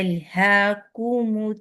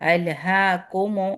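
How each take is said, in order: First: The vowel after k is a rounded 'u'. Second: The vowel after k sounds like an open 'o'. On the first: The speaker calls it right. "वो दम्मा को हमने राउंड करना है" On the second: The speaker calls it wrong. "अलहा कोमो ऐसे नहीं पढ़ना है"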